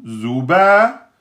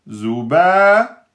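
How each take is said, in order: The two takes are said the same way.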